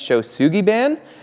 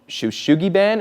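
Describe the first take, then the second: First: The second syllable begins with an 's' sound. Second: The second syllable begins with an 'sh' sound. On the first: The speaker calls it right. "it's actually Shosugiban" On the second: The speaker calls it wrong. "I was saying sh Shoshugiban"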